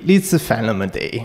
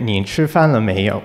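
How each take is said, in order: First: It is said in Sichuanese dialect. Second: It is said in standard Mandarin.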